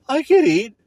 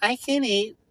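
First: High, mocking whine; mock the lazy answer. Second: High, whiny mock reply. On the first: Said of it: "It's like". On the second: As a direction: mimic the vague friend. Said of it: "Are you hungry or not".

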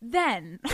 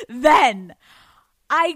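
First: Said in the usual way. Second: A loud, punched then; louder restart. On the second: Acted. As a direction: kick the story off again, louder.

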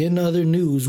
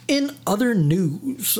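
First: Said in the usual way. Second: Slow, higher-pitched "in other news", rising at the end; drawn-out segue. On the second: Shown as a demonstration. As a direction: stretch out each word of the segue. Mock segue, drawn-out announcement.

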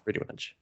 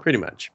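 First: Breathy pretty much, whispered; whispered repeat. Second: Said in the usual way. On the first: Real, not acted. Agreeing with friend, pretty much whispered. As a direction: echo pretty much under your breath.

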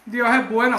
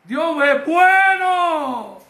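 First: Unexcited, understated praise; mock a half-hearted worshipper; flat praise. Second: Long, high shout of praise; slow, exultant preacher's shout. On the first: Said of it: "así como flat". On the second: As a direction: cry it out jubilantly, stretching the words. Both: Shown as a demonstration.

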